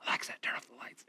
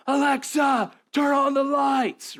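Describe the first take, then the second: First: Sneaky whispered reply. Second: High, loud, slow shouted command; guy on the couch yelling for the lights. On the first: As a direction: hiss it right back at the device. Prankster answering the yell, giggling. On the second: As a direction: bellow it from the other room. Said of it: "you hear this guy yell". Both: Retold or imitated.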